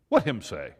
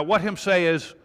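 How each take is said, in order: First: Lower, baffled dopey voice; mock baffled reader. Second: Said in the usual way. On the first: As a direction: lower mock-dim "What him say?". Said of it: "most average readers went".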